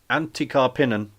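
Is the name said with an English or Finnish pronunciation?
English. The name is said with English-style sounds. The speaker calls it wrong.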